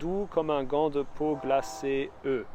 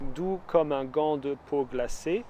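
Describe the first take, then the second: First: The final e of glacée is sounded. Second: The final e of glacée is silent. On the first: "the unvoiced or voiced I" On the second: "the unvoiced or voiced I"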